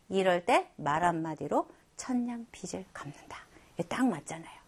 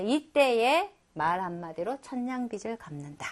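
First: Hushed whisper of the proverb; whispered, as if sharing a tip. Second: Said in the usual way. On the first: Shown as a demonstration. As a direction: lean in and whisper it like a secret. Teacher whispers the proverb's point.

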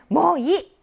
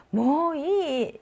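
First: Loud, high, abrupt 뭐 이; short, irritated-sounding demo of 뭐 이; brusque refusal. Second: 뭐 이 stretched very slowly and high; long, lilting demo of 뭐 이; softened refusal. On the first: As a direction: snap out 뭐 이 as a refusal. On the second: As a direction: draw out 뭐 이 playfully. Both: Shown as a demonstration. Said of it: "말투나 억양에 따라 좀 달라지지".

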